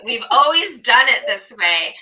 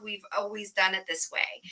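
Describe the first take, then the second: First: "We've always done it this way" said loud and fed up; exasperated quote. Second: Flat quote. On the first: Host venting about a hated phrase, loud exasperation. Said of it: "Ugh, that phrase". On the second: Host contrasting innovation with old habits, soft quote. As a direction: let "We've always done it this way" drop quietly. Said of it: "the antithesis of". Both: Retold or imitated.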